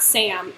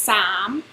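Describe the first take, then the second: First: The vowel sounds like the 'a' in cat. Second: The vowel is a long open 'ah' sound. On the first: The speaker calls it wrong. "It's not Sam" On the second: The speaker calls it right. "Sam is kind of S A H M"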